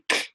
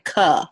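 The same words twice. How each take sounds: First: The consonant is said alone, with no vowel. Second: The consonant is followed by an 'uh' vowel. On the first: "instead of saying k" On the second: "they're going to say k"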